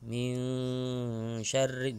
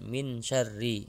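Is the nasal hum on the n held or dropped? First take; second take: held; dropped. First: The n carries a held nasal hum. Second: The n has no held nasal hum. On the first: The speaker calls it right. "bacaan yang seharusnya baca dengung" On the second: The speaker calls it wrong. "menghilangkan dengung ... itu salah"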